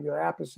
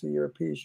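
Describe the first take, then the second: First: Appice as APP-uh-see; first-syllable stress. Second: Appice as uh-PEECE; pronounced "a piece". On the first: Singer listing the drummer's names, Appice as APP-uh-see. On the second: Singer listing the drummer's names, [name] as "a piece". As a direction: stress the second syllable of Appice, ending in s. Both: Retold or imitated. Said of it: "all these different names".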